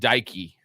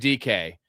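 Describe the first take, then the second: First: The surname is said as one blended word. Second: The surname is said as two separate letters. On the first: The speaker calls it wrong. "he called him Daiki" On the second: The speaker calls it right. "It's uh, Shamir D K"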